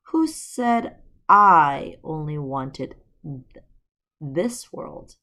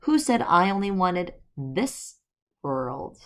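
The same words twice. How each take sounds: First: "Who" drawn out and stressed, "this" unstressed; misplaced emphasis on "Who"; wrong stress. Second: Corrected emphasis on "this"; corrected stress. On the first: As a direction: stress landing on "Who" instead of "this world". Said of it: "I emphasized the wrong word". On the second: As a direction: stress moved onto "this", rising. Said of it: "I read that sentence wrong". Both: Shown as a demonstration.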